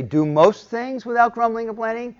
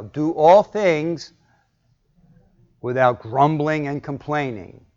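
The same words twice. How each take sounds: First: High, mocking misquote with most; mock wrong version. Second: ALL stressed, slow and loud; emphatic quote. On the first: Preacher mocking the softened misquote, high and sarcastic. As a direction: sneer the word most up high. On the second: Preacher quoting scripture, stress on all. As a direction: lean on the word all. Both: Shown as a demonstration. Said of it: "Does it say".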